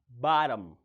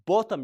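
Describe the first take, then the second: First: It is said in an American accent. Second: It is said in a British accent.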